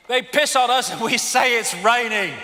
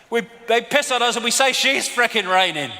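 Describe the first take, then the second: First: Saying it through a laugh. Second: Said in the usual way. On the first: Real, not acted. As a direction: chuckle the line out.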